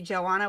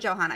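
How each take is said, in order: First: The H sound is left out entirely. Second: The H sound is pronounced in the middle. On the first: "with the silent H" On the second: "that's what I want to say"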